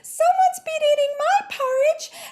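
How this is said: The voice is pitched very high. A small baby character is speaking. "Very high-pitched voice"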